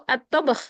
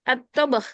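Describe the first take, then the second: No difference in how they are said.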